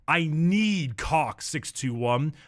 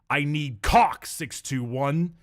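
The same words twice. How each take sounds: First: The word need carries the emphasis. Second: The word cock carries the emphasis. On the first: The speaker calls it wrong. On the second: The speaker calls it right.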